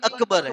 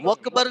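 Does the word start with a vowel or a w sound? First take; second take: vowel; w sound. First: The word begins with a plain vowel. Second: The word begins with a w sound. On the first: The speaker calls it right. "अकबर है" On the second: The speaker calls it wrong. "वकबर नहीं"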